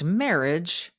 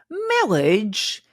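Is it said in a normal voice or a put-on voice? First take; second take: normal; put-on. First: It is said in her normal voice. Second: It imitates the Princess Bride clergyman's voice.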